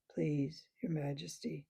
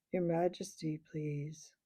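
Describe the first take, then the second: First: Lower, soft whispered bear plea. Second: Thick sleepy bear voice. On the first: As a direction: breathe the request, half asleep. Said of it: "said the bear". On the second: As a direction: mumble it like a drowsy old bear. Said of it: "a thick, sleepy voice said". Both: A narrator's reading.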